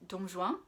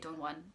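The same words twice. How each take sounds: First: The name is said with a French pronunciation. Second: The name is said with an English pronunciation. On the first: "in French it's" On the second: "I had to say"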